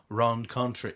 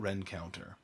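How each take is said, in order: First: The name ends with a 'contre' sound. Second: The name ends with a 'counter' sound. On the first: This is how the spelling suggests saying it. "if you were to see it on paper, you'd pronounce it probably Rencontre East" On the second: This is how the locals say it. "but they call it Rencounter"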